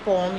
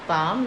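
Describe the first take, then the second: First: The vowel sounds like 'o'. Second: The vowel sounds like 'aa'. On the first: The speaker calls it wrong. "इनको हमने पॉम या हॉफ नहीं कहा है" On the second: The speaker calls it right. "पाम या हाफ कहा है"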